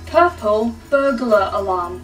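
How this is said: It is said in a put-on English accent.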